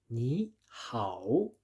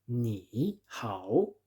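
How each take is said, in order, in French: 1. La première syllabe monte, au deuxième ton. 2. La première syllabe descend bien bas, au troisième ton. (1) "on modifie le premier troisième ton en deuxième ton" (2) "à la place de dire ni hao"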